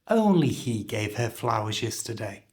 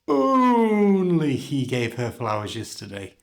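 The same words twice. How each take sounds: First: 'Only' is said fully and clearly on its own beat. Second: The vowel in 'only' is stretched out long. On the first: The speaker calls it right. "pronounce it as fully and clearly as you can... giving it its own beat, like this" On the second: The speaker calls it wrong. "stretch out the vowel sound to stress a word"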